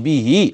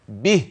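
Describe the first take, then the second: First: The final h is followed by a vowel. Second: The final h ends bare, with no vowel. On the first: The speaker calls it wrong. "ما اقولش به" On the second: The speaker calls it right. "ايوه كده تمام"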